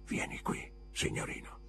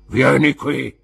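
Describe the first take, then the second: First: Sussurro senza voce; bisbiglio. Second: Molto più alto e forte; grido rozzo. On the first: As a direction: ordina sottovoce, in un soffio. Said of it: "Parlava in un bisbiglio". (Creakle chiama il ragazzo in un bisbiglio) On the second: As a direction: urla l'ordine. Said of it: "disse l'uomo con la gamba di legno". (il custode ripete l'ordine gridando) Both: A narrator's reading.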